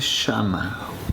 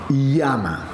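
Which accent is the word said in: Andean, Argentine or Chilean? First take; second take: Argentine; Andean. First: It is said with an Argentine accent. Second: It is said with an Andean or Spanish accent. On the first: "un argentino dice llama" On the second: "un peruano de la sierra? O un español también, los españoles pronuncian muy bien la L"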